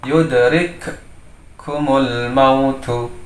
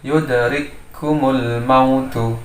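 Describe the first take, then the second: First: The two k sounds are pronounced separately. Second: The two k sounds merge into one. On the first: The speaker calls it wrong. "bacaan yang yang salah atau yang tidak benar" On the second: The speaker calls it right. "membacanya adalah satu huruf kaf"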